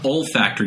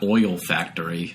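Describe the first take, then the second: First: The first syllable sounds like 'ol'. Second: The first syllable sounds like 'oil'. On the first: The speaker calls it right. "olfactory, not oil factory" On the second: The speaker calls it wrong. "not oil factory"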